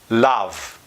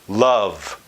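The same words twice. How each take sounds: First: The vowel sounds open, like 'ah'. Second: The vowel is a relaxed 'uh' schwa. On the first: The speaker calls it wrong. "they don't say a word like up, or supper, or love as" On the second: The speaker calls it right. "think of it as the schwa"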